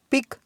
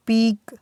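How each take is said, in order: First: पिक with a short i; short vowel. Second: पीक with a long, held ee; long vowel. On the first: Teacher drilling word pairs for students, short vowel. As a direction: keep the i in पिक brief. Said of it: "short sound है". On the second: Teacher drilling word pairs for students, long vowel. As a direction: stretch the ee in पीक. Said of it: "इसका sound long है". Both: Shown as a demonstration.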